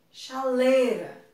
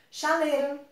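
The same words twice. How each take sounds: First: "Chaleira" slow, with the I spoken clearly; careful written form. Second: "Chaleira" said as "chalera", the I dropped; everyday pronunciation. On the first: Teacher contrasting the written form with speech. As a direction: spell it out in sound, slowly. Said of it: "mas na escrita, não". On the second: Teacher showing how people really say the word. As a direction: drop the I the way people talk. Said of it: "Na fala eu posso falar". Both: Shown as a demonstration.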